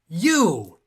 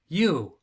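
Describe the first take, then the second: First: The word is said loudly with excitement. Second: The word is said flatly, without excitement. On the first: The speaker calls it right. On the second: The speaker calls it wrong. "Didn't sound exciting enough"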